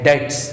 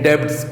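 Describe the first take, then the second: First: The word is said without any b sound. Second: The word is said with a b sound. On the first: The speaker calls it right. "बी silent होता है, तो डेट कहते हैं" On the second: The speaker calls it wrong. "डेब्ट्स कोई words नहीं"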